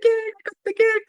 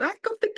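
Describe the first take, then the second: First: High, loud, ringing cry of joy; jubilant shout. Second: Rising, giddy cry of disbelief; bursting with the news, voice climbing; excited. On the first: After hearing he got the film, jubilant high shout. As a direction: shout it to the snowy street. Retold rushing out barefoot after news. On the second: Barefoot in the snow after the call, excited rising cry. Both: Retold or imitated.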